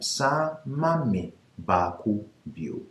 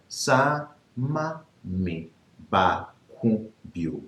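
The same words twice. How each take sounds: First: It is said at normal speed. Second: It is said slowly.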